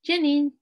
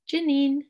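First: The word starts with a J sound. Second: The word starts with a J sound.

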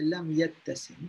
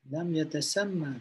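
First: The verb ends without a final short 'a' vowel. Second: The verb ends with a short final 'a' vowel. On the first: The speaker calls it wrong. "dulu kita baca lam yattasim" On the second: The speaker calls it right. "Pendeklah baca dia ... Jadi berbaris atas lah"

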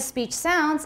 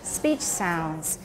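First: The stress falls on the word sounds. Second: The stress falls on the word speech. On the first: 'Sounds' is a verb: speech seems a certain way. The speaker calls it wrong. "Instead of speech sounds" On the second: It is a noun: the sounds of speech. The speaker calls it right. "speech sounds is actually a noun"

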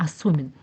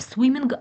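First: No g sound is heard at the end. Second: A g sound is heard at the end. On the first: The speaker calls it right. "Як наче звук г не звучить" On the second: The speaker calls it wrong. "не swimming"

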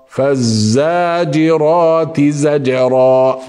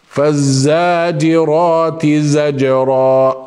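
The two takes are said the same way.

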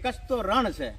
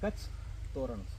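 First: It runs on with no pause after the first word. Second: It has a pause after the first word. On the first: The region is merely a desert. "લોકો એમ કે કચ્છ તો રણ છે" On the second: The region is a welcoming festive garland. "વચમાં અલ્પવિરામ મૂકે"

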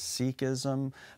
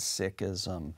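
First: It is said with a common English pronunciation. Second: It is said closer to the Punjabi pronunciation. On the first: The speaker calls it wrong. "sometimes in English people pronounce this as Sikhism" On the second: The speaker calls it right. "the better pronunciation, closer to the Punjabi name"

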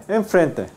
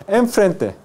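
No difference in how they are said.

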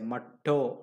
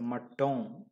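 First: The word ends on a vowel, without nasal sound. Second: The word ends with a soft nasal M sound. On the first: The speaker calls it wrong. "you don't say matto" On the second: The speaker calls it right. "still you can listen the a kind of a nasal M"

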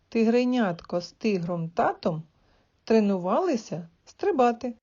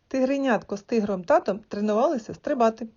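First: It is said at a slow pace. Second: It is said at a faster pace. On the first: "Спочатку повільно" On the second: "а потім прискорюй темп"

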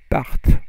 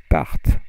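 Both takes have the same delivery.

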